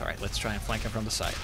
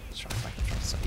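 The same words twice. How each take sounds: First: Said in the usual way. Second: Soft unvoiced whisper. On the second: Real, not acted. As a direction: whisper the plan to yourself. Repeat whispered.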